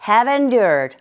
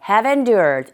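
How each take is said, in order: First: The two words are said quickly and linked together. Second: The two words are said quickly and linked together.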